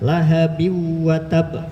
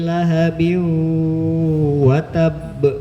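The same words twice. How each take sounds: First: It is read quickly with a clipped hum. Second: It is read slowly with a drawn-out hum. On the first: The speaker calls it wrong. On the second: The speaker calls it right.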